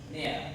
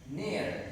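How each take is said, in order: First: It is said in a British accent. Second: It is said in an American accent. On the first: "In British accent like there" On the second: "but American is near, near, near with the clear R"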